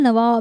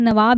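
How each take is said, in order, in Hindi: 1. यह शब्द अंग्रेज़ी तरीके से, अंग्रेज़ीकृत उच्चारण में बोला गया है। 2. यह शब्द अपने मूल हिंदी उच्चारण में बोला गया है। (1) "उसको इंग्लिश एक्सेंट में ऐसा हो जाता है" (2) "जैसे कि मैंने कहा नवाब ही है"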